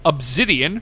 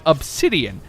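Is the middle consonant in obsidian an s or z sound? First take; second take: z; s. First: The middle consonant is a buzzing z sound. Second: The middle consonant is a hissing s sound. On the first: This is a habit picked up from others. "I've heard it said obsidian for so damn long" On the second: This is the standard pronunciation. "I realize it's an S, not a Z. I know it's supposed to be said obsidian"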